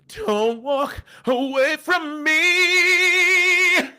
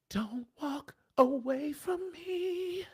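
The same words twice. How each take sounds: First: It bursts out loudly on the word me. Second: It is said softly, pleading.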